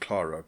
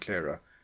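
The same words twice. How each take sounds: First: The name is said the speaker's local, non-American way. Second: The name is said the American way. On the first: This is how it is said where the speaker lives. "In my corner of the world we pronounce it" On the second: This is how Americans say it. "Americans seem to prefer"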